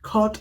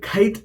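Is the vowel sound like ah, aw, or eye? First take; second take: aw; eye. First: The vowel is a rounded aw sound. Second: The vowel is an eye-like glide. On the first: The speaker calls it right. "ഖോട്ട് എന്നാണ് പറയുന്നത്" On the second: The speaker calls it wrong. "അല്ലെങ്കിൽ ഖൈറ്റ് എന്നോ അല്ല പറയുന്നത്"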